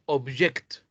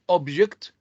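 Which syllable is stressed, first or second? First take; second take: second; first. First: The stress is on the second syllable. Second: The stress is on the first syllable. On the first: It is a verb. "and the second syllable of the italicized word in the second sentence" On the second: It is a noun. "the stress occurs on the first syllable of the italicized word in the first sentence"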